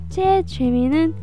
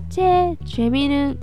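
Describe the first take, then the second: Both takes have the same delivery.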